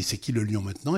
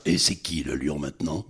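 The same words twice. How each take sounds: First: Said in the usual way. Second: Low, mock-macho lion taunt; joke dubbed line. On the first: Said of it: "Jamel dit". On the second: Dubber retelling his studio joke, low swaggering voice. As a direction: drop low and goof around with the line. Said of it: "je fais pour déconner comme ça".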